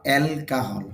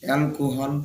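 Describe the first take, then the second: First: অ্যালকোহল said the English way, elkahol; অ্যালকোহল as an English speaker says it; English pronunciation. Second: অ্যালকোহল said the Bangla way, elkuhol; অ্যালকোহল with Bengali vowels; Bangla pronunciation. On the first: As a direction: give অ্যালকোহল its English vowels, kah in the middle. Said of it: "English উচ্চারণটা হলো". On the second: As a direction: round the middle of অ্যালকোহল into a Bangla ku. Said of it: "বাংলা হলো". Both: Shown as a demonstration.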